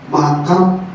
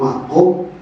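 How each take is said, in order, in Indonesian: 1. Vokal kedua terdengar seperti 'a'. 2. Vokal kedua terdengar seperti 'o'. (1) "wong lidah Jawa makam" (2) "padahal makom"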